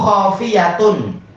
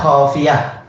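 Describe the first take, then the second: First: The word ends with -atun. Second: The word ends with -ah. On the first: This is the full form, not the pause form. "Padahal asalnya apa?" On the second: This is the form used when stopping. "Khafiyah belakangnya jadi hak disukun"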